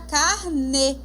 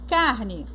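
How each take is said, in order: First: The stress is on the last syllable. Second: The stress is on the first syllable. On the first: It means a booklet of installment payments. "Se você colocar um acento, vira carne" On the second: It means meat to eat. "carne de comer"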